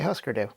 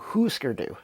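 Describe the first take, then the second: First: The last syllable ends in a different vowel. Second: The last syllable ends in an 'ooh' vowel. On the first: "So I say Husker Du" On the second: "the proper pronunciation based on the umlauts, would imply that it's ooh"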